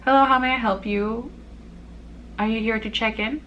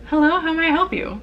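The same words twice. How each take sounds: First: A lightly raised polite front-desk greeting; customer service voice. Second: Higher, quicker polite front-desk greeting; customer service voice. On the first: Hotel clerk checking in a guest, in a lightly polite customer voice. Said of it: "My voice doesn't change much". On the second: Hotel clerk greeting a guest, in a higher, polite customer voice. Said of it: "should I do, like, my customer voice?". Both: Shown as a demonstration.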